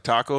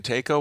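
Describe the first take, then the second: First: "taco" as TAH-ko; correct pronunciation. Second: "taco" as TAY-ko; long ay in "taco", said wrongly; deliberate mispronunciation. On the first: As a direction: open ah in "taco". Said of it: "didn't know how to pronounce". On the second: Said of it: "saying it like that". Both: Shown as a demonstration.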